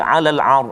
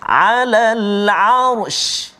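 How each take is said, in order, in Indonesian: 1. Kata itu berakhir dengan 'r' tanpa 'sh'. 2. Kata itu berakhir dengan bunyi 'sh' yang jelas. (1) "Selalu buat tak jadi, bunyi ar je. Shin tak bunyi" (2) "kena bunyi juga huruf shin tu"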